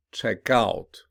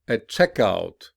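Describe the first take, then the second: First: "Check out" with OUT stressed; stress on second part. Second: Noun form, punch CHECK in "A checkout"; stress on first part. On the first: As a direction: verb form, lean on OUT in "Check out". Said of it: "commonly stressed on the second". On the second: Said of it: "listen to stress pattern". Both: Shown as a demonstration.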